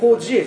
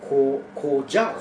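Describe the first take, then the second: First: The second syllable ends in a short 'eh' sound. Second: The second syllable ends in an 'yao' glide. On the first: The speaker calls it wrong. "コジェじゃなくて" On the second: The speaker calls it right.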